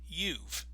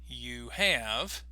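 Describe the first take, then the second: First: It is said as one short contracted syllable. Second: It is said as two full words.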